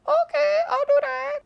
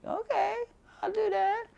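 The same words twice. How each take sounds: First: Very high and louder mock voice of the barber; corrected barber impression. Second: A very high mock voice of the barber; imitating the barber. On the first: Correcting his impression of the barber agreeing, very high and louder. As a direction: redo the barber, squeakier and louder. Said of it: "That's not really her voice". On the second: Retelling the barber agreeing to do his eyebrows, in a very high mock voice. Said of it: "she was like".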